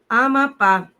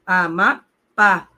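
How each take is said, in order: First: Said in the usual way. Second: Amapá slowly, the last syllable pá stretched and stressed. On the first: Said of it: "Não me lembro se essa palavra leva acento". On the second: Shown as a demonstration. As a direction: draw out Amapá, leaning on pá. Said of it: "A sílaba tônica é a última". (Amapá devagar, tônica na última sílaba)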